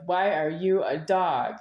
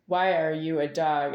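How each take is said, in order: First: Slow, tense mock-angry question. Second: Said in the usual way. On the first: Slow mock-angry question snapped at his dog Rocky. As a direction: bark it slowly at the dog, tense. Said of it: "And I said it angry". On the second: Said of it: "I said something to Rocky like this".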